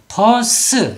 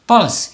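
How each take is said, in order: First: The word is said in two syllables. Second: The word is said in one syllable. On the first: The speaker calls it wrong. "버스 이렇게 되면 이파장이 되고요" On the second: The speaker calls it right. "이렇게 한 박자로 소리를 낸다는 거고요"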